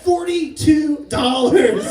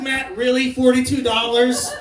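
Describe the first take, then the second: First: FORTY-TWO DOLLARS said slowly, word by word; "Forty-two dollars" stretched out for comic weight; drawn-out announcement. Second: "Forty-two dollars" as a quicker incredulous question; "Forty-two dollars" thrown back in disbelief; disbelieving echo. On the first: Son announces his winnings to dad. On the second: Dad repeats the sum in disbelief. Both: Retold or imitated.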